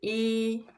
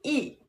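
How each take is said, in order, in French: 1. La hauteur reste haute et stable. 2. La hauteur tombe nettement.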